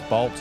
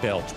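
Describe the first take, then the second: First: The vowel is an A sound, as in bat. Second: The vowel is an E sound, as in bell. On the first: The speaker calls it right. "It's balch. It's an A" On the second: The speaker calls it wrong. "I don't know why I pronounced it belch"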